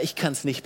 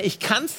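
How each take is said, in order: First: Defeated. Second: Confident. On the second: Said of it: "Bist du eine". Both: Shown as a demonstration.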